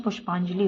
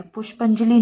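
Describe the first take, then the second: First: पुष्पांजलि with long "paan"; correct pronunciation. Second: पुष्पांजलि louder, with short "pan"; wrong pronunciation. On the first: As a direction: lengthen the middle aa of पुष्पांजलि. (पुष्पांजलि में "पां" खींचकर बोलें) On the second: (पुष्पांजलि में "पां" को "पं" बोलें) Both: Shown as a demonstration. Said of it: "पुष्पांजलि होता है".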